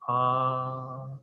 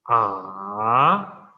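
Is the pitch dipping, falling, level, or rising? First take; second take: level; dipping. First: The pitch stays high and level. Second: The pitch dips down and then rises. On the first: "high level tone" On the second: "So first falling and then rising"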